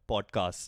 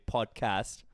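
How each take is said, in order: First: It is said in an Indian English accent. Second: It is said in an American accent. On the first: "if I'm speaking it in my Indian English accent, I would say pod podcast" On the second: "if I'm speaking it in American accent, I would say podcast"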